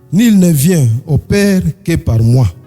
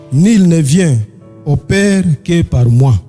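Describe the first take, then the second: Both takes have the same delivery.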